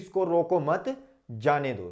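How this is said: There is a pause right after मत. The person should be allowed to leave. "आपने लगाया अल्प विराम जाने दो"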